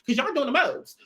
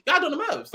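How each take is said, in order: First: Said in the usual way. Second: "Y'all" jumps up high, insistent; emphatic repeat. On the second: Retold or imitated. Voicing what Kat should tell the girls, higher and insistent. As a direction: say it again, higher and pushier. Repeated quote, pushed harder.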